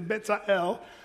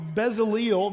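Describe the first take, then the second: First: The name has a Hebrew-style pronunciation. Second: The name has a familiar English-style pronunciation. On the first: This is how Hebrew speakers say the name. "if you're a Hebrew person, you'd say Bezalel" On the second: This is how English speakers usually say the name. "maybe that's a little more familiar. That's the way we say it"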